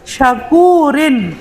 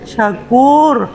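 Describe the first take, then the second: First: The final syllable rin is pronounced. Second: The final syllable rin is dropped. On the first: The speaker calls it wrong. "Jangan dibaca syakurin, pasti salah dong" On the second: The speaker calls it right. "syakur ilmu tajwid itu yang betul"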